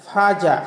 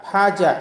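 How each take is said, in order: Both takes have the same delivery.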